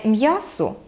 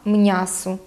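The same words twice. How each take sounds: First: Said in the usual way. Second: М'ясо said as "mnyaso"; dialect soft н. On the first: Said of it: "Не м'ясо". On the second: Shown as a demonstration. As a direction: put a soft n after m in м'ясо. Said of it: "«л» і «н» після губних".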